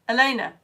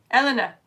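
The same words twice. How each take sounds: First: Elena said as uh-LAY-nuh; trying a pronunciation. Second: Elena said as EL-uh-nuh; trying a pronunciation. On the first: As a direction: stress the middle of Elena, with an AY sound. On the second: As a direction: stress the first syllable of Elena, short E. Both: Shown as a demonstration. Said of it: "Pronounce her name right".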